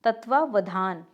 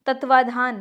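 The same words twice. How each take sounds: First: तत्वावधान with the extra "va"; correct form. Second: तत्वाधान with "va" only once; incorrect form. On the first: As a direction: say तत्वावधान as "tatvaa-va-dhaan". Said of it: "इस तरह से होता है". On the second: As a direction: say तत्वाधान as "tatvaa-dhaan". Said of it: "नहीं, इस तरह से होता है". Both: Shown as a demonstration.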